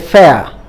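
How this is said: The R sound at the end is dropped. "In British style, they say fair. They don't pronounce the R"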